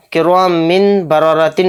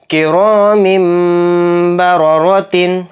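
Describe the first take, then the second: First: कि रॉ मिन बा रॉ रॉ तीन with a clear नून in मिन, quick; wrong reading. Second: Both रॉ full-mouthed and heavy, मिम merged; कि रॉ मिम बा रॉ रॉ तीन with full-mouthed रॉ; heavy raa recitation. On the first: Teacher naming the reading not to use, quick. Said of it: "नहीं कहेंगे". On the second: Teacher showing pupils the heavy रॉ, full-mouthed. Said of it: "मोटा पढ़ेंगे, मुंह भर के". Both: Shown as a demonstration.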